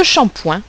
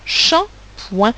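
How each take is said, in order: First: Said in the usual way. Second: Shampoing broken into "sham" and "poing"; Shampoing in two separate beats for learners; syllable by syllable. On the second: Shown as a demonstration. Teacher splits word into syllables.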